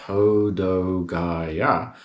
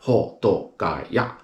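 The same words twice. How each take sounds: First: The syllables flow smoothly together, English style. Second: The syllables are short and sharp, Japanese style. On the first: The speaker calls it wrong. "in English, we sort of flow the letters or the syllables together" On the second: The speaker calls it right. "in Japanese, they really say it short and sharp"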